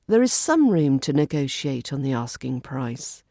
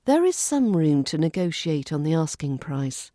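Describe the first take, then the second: No difference in how they are said.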